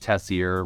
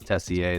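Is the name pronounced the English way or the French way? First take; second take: English; French. First: The name is said with an English pronunciation. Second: The name is said with a French pronunciation. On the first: This is the everyday version used day to day. "I go by [name]" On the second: This is the original family version. "Real pronunciation's Tessier. It's French Canadian"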